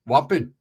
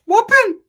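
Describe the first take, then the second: First: Said in the usual way. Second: "Whopping" yelped much higher and louder, dropping at the end; Super Norteño squeal. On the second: Shown as a demonstration. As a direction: shriek "Whopping" like a pumped-up gangster. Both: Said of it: "I get my Super Norteño on".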